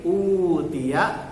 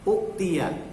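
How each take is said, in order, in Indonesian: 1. Vokal pertama dipanjangkan. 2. Hamzah mengikuti vokal pertama yang pendek. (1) "sebelah kiri utia, u-nya panjang" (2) "uktia hamzahnya diganti dengan waw"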